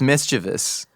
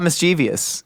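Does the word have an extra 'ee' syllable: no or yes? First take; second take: no; yes. First: It has no extra 'ee' sound before '-ous'. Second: It has an extra 'ee' sound before '-ous'. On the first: The speaker calls it right. "It's mischievous" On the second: The speaker calls it wrong. "It's not mischievous. ... there's no I in that freaking word"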